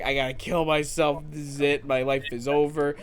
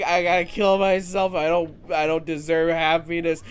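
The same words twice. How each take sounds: First: Understated, lightly voiced self-pity; mild mock despair. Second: Overacted wallowing for the joke; mock despair. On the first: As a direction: toss off the despair in a near-normal voice. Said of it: "not enough to be like". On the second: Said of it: "that was a joke".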